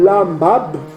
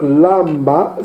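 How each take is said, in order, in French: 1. Le mot finit par un son de consonne finale. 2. Le mot finit sur une voyelle, la consonne finale est muette. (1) "on ne dit pas lambab" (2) "la consonne finale est souvent sourde"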